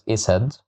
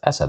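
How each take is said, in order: First: The word begins with an i vowel. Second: The word begins with an a vowel. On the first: The speaker calls it wrong. "I can't pronounce it as isad" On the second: The speaker calls it right. "I have to pronounce it as asad"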